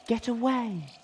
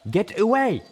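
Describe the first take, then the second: First: Very high, eerie long-held wail; howling wind voice. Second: High, loud furious yell. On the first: The haunted tree's wind moans at the intruders, eerie. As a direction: let the wind moan the words. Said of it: "howl of the wind seemed to form words". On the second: Zenith yells at Velvet Remedy before charging, loud. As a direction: scream the warning at her. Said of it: "Zenith yelled". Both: A narrator's reading.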